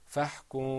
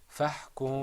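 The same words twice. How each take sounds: The two takes are said the same way.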